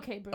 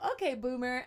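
First: It is said in a flat, dismissive tone. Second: It is said in an upbeat tone.

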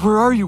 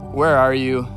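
First: The voice sounds scared and panicked. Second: The voice sounds flat and uninterested. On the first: God is afraid something terrible happened. "Was God scared?" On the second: God does not really care. "Was God apathetic?"

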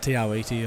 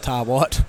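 First: The name is said in full, with every syllable. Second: The name is said in a clipped, shortened form. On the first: This is the proper pronunciation. The speaker calls it right. "Tiawiti is the proper name" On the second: This is a common casual pronunciation. The speaker calls it wrong. "Some pronounce it"

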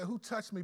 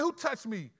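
First: The question sounds calm and not angry. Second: The question sounds angry and accusing. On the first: The asker sensed genuine faith and wants to know who it was. The speaker calls it right. "No, he said" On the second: The asker is offended at being touched. The speaker calls it wrong. "he didn't say it angrily. He went like, man"

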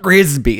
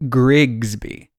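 First: The name is said without a g before s. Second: The name is said with a g before s. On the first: The speaker calls it wrong. "people always forget it and they say Grigsby. It's not Grigsby" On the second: The speaker calls it right. "I always have to throw that second G in"

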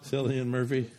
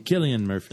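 First: The name is said the everyday English way. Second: The name is said the traditional Irish way.

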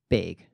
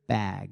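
First: The vowel has a Minnesotan raised sound. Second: The vowel is a plain short A.

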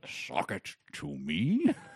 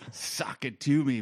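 First: The line is delivered in a stilted, odd way. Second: The line is delivered in a natural, punchy way. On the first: This imitates an awkward reading of the catchphrase. The speaker calls it wrong. "the oddest line reading" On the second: This is how the catchphrase is meant to go. The speaker calls it right. "Where it was supposed to be sort of a"

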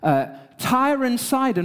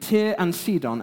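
First: The place names have a plain English pronunciation. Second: The place names have a local Lebanese pronunciation. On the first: "the daughter of the king of Tyre and Sidon" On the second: "as my friend who lives in Lebanon said to me this week"

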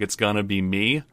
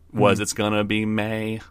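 First: The last word ends in a hard 'ee' vowel. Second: The last word ends in an 'ay' vowel. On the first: The speaker calls it wrong. "you just hit that hard E" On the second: The speaker calls it right. "make it more of an A sound"

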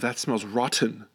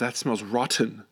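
First: The T in rotten is crisp and over-enunciated. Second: The same.

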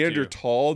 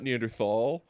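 First: The middle consonant is a plain t sound. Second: The middle consonant is a th sound. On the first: The speaker calls it right. "it's actually Neanderthal" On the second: The speaker calls it wrong. "not Neanderthal"

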